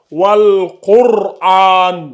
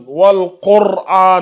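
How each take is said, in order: First: Wal Qur'an drawn out very slowly, heavy ra; slow recitation. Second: Wal Qur'an again, a little quicker, heavy ra; repeated model. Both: Shown as a demonstration. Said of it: "le ra ici sera emphatique".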